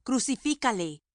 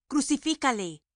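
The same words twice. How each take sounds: First: Raised, higher cry of Crucifícale; crowd shouting. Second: A little higher and louder cry of crucifícale; crowd shouting, building. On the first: Priests crying out against Jesus, raised shout. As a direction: shout Crucifícale up high, falling at the end. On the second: Priests insisting to Pilate, building shout. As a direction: push crucifícale harder the second time. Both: A narrator's reading. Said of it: "dieron voces diciendo".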